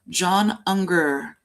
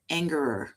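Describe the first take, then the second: First: The surname is said in its 'Unger' form. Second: The surname is said in its 'Angerer' form. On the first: This is how the defense attorney says it. "that is how the defense attorney pronounces his name" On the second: This is how everyone else says it. "Everyone else pronounces it Angerer"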